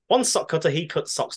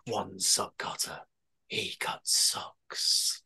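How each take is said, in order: First: The phrase is said quickly, as a tongue twister. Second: The phrase is said slowly and deliberately. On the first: It works as a tongue twister. "let's see how fast I can say this" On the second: It sounds like a serial killer's calling card. "If you read it slowly"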